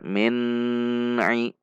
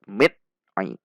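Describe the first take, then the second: First: The n is held with a long nasal hum. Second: The n is cut off abruptly and jerkily. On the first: "Tidak boleh dibaca min ai. Itu bacaan gunnah" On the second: "Itu bacaan menghentak"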